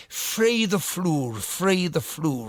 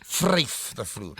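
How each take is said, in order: First: "Free the floor" slow, with a falling end, the Irish mother's way; slow mock Irish mother saying "free the floor"; Irish mother's mispronunciation. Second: "vryf the floor" slow, with the Afrikaans "vryf" said "frayf"; the correct Afrikaans "vryf the floor"; Afrikaans pronunciation. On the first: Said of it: "which means flirt with the floor rather than". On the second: Shown as a demonstration. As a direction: say "vryf" the proper Afrikaans way, slowly. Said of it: "rather than".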